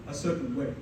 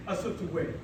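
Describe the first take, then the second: No difference in how they are said.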